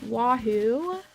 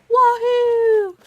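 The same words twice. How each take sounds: First: It is said flatly, with little energy. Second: It is said loudly, with high energy.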